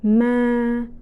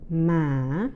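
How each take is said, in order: First: The pitch stays level in the middle range. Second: The pitch dips low and then rises. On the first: "the flat or the mid-level tone" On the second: "the asking or low rising tone"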